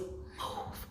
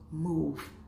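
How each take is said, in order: First: It is said softly and less clearly. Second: It is said boldly, clearly and sternly.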